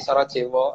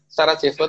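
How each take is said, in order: First: It is said with a w sound. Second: It is said with a v sound.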